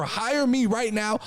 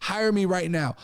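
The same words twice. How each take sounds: First: HIRE me right now, each word slowed and leaned on; insistent offer, slowed right down; slow emphatic pitch. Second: Said in the usual way. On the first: Shown as a demonstration. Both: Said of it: "this is an offer".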